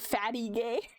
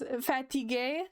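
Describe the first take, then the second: First: It is pronounced like the English words 'fatty gay'. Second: It is pronounced as a French word. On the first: It is a joke made in French class. The speaker calls it wrong. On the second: It is the real word for being tired. The speaker calls it right. "what we would say fatigué"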